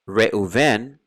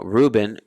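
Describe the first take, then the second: First: The middle consonant is a v sound. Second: The middle consonant is a b sound. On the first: "from a B to a V" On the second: "from a B to a V"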